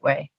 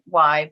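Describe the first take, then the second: First: It is said like the word 'way'. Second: It is said like the word 'why'. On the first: This is how the organization says it. "we pronounce it Way" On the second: This is how screen readers say it. "screen readers pronounce it Y"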